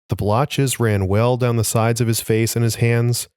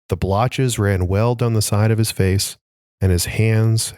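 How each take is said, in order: First: It runs on without a pause after face. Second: There is a pause right after face. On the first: The face and the hands are grouped together. The speaker calls it wrong. "I misread that for sure" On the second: The hands begin a new clause. The speaker calls it right. "You got to pause at the end"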